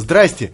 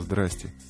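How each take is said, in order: First: It is shouted joyfully and excitedly. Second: It is said sadly and hopelessly.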